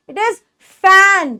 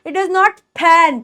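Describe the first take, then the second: First: Pause, then start fan with friction; true F sound. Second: Fan as "p-han", slowly; wrong puffed P. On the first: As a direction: fan begun "fff", no lip pop. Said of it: "ऊपर के दांत". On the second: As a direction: pop an aspirated P at the start of fan. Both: Shown as a demonstration.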